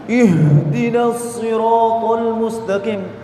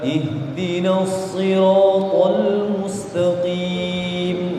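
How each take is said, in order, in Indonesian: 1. Bunyi h didorong dengan tekanan dada. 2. Bunyi h mengalir ringan dari tenggorokan. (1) "ada tekanan di dada, maka antum membaca huruf ha dengan cara yang salah" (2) "Kalau dari tenggorokan bawah ngalir aja"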